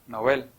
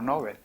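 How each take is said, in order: First: The word has the Swedish pronunciation. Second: The word has the usual Spanish pronunciation. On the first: The speaker calls it right. "hay que decirlo con la pronunciación sueca" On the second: The speaker calls it wrong. "no Nobel"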